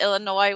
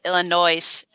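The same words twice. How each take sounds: First: The final S sound is left silent. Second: The final S sound is pronounced. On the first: "with the S being silent" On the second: "they pronounce that S"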